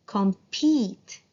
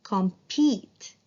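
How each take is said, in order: First: "compete" ending in a long E; teacher modelling long E. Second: "Compete" repeated with a long E; teacher repeating the word. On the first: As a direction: stretch the E in "compete". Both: Shown as a demonstration. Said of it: "Long E".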